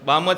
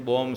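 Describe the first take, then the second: First: The vowel sounds like 'aa', as in balm. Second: The vowel sounds like 'o', as in bomb. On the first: It names the balm in the tin. The speaker calls it right. "બામ જ કહેવાય" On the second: It sounds as if she says she has a bomb. The speaker calls it wrong. "બોમ્બ છે એમ બોલ્યા"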